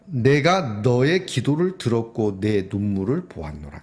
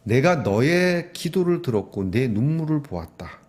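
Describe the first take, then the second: First: Slow, grave reading of 보았노라; solemn scripture reading. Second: Slow, with 내가 stressed and ringing out; emphatic repeat. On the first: Preacher reads God's word to the congregation, slow and solemn. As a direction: lay each word down slowly like scripture. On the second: Preacher repeats God's promise to his flock, slow and emphatic. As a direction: press every word home to the church. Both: Shown as a demonstration. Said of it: "아, 이게 중요합니다".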